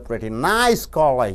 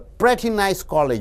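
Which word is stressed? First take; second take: nice; pretty. First: The word nice carries the stress. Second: The word pretty carries the stress. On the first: The college is only average. "It means it's an average college" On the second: The college is good. "When you stress on pretty, it's a good college"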